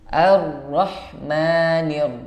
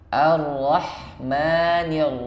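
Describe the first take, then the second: No difference in how they are said.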